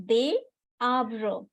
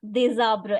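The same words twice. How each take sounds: First: Des, then arbres, as separate words; des arbres unlinked. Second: Des arbres linked with a Z sound; liaison in des arbres. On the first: Teacher sets the liaison exercise, des and arbres apart. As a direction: pause between des and arbres, S silent. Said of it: "Anyone want to try this liaison?". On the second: Teacher confirms student's answer, des arbres joined by liaison. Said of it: "You have to make a liaison here". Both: Shown as a demonstration.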